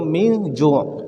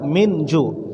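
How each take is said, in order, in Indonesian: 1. Dibaca dengan aturan tajwid tilawah yang cermat. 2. Dibaca biasa saja, seperti tutur sehari-hari. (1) "Kalau kita pakai tajwidnya" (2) "tapi kita baca seperti biasa"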